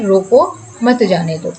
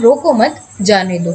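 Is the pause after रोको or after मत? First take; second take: after रोको; after मत. First: The pause comes right after रोको. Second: The pause comes right after मत.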